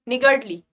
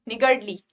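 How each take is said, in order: The two takes are said the same way.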